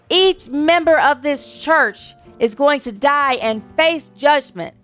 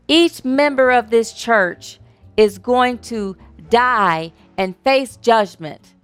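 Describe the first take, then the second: First: It is said passionately, with more force. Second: It is said calmly, with less force.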